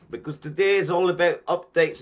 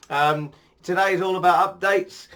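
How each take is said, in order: First: "today is all about updates" in a light put-on Scottish accent; bad Scottish accent. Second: Said in the usual way. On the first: Vlogger announcing the topic in a mock Scottish accent. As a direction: finish the line still in a half-hearted Scottish accent. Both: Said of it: "I'm gonna quit doing this Scottish accent".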